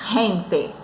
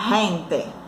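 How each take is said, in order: Both takes have the same delivery.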